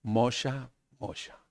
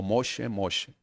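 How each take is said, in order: First: "Mosha" as MOH-sha, ending in a; Hebrew name attempt. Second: "Moshe" as MOH-sheh, ending in e; Hebrew name form. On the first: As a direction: call "Mosha" twice, the second much softer. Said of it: "¿Sabe cómo le dijo?". ("Mosha" a la hebrea, terminado en a) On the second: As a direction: say "Moshe" twice, second falling softer. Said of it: "Así le dijo". ("Moshe" a la hebrea, terminado en e) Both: Shown as a demonstration.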